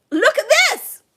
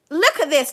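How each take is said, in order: First: Much higher, louder delighted cry; excited cry. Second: Said in the usual way. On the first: Real, not acted. To the viewer, over the card, an excited higher louder cry. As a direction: shout it out, thrilled by the card.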